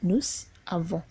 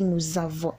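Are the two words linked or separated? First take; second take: separated; linked. First: The words are said apart without linking. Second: The S sound links into the next vowel. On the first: The speaker calls it wrong. "and not" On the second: The speaker calls it right. "No, we say"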